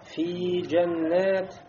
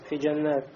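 First: The vowel in 'fi' is drawn out long. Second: The vowel in 'fi' is clipped short. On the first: The speaker calls it right. "а там еще есть е и, а я то есть" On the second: The speaker calls it wrong. "في как будто просто с кясрой"

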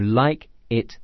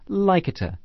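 First: The two words are said separately. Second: The two words are linked together.

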